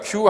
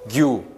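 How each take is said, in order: First: The first consonant is a voiceless k sound. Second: The first consonant is a voiced g sound. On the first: "음성결은 K로 이렇게 나타낼 수 있어요" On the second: "이게 유성음이라면 G죠"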